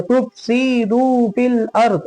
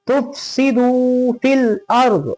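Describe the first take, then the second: First: "तुफ़सिदू फिल अर्ज़" with "सि" dragged into a long "सी"; wrongly lengthened vowel. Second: "तुफ़सिदू फिल अर्ज़" with quick "सि", long "दू"; short seen. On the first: Teacher showing how not to read it, wrongly lengthened vowel. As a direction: stretch both "सि" and "दू". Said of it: "ऐसे नहीं". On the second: Teacher correcting the reading, short seen. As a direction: hurry "सि", stretch only "दू". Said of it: "सीन को जल्दी". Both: Shown as a demonstration.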